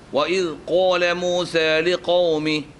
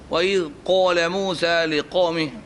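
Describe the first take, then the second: No difference in how they are said.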